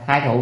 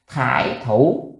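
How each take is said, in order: First: The first syllable has the high rising thái tone. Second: The first syllable has the dipping thải tone. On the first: The speaker calls it right. "là thái thủ kia" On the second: The speaker calls it wrong. "thái thủ này đọc thải nó kỳ quá"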